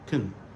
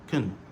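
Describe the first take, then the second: First: The word has a weak, reduced vowel. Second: The word has a weak, reduced vowel.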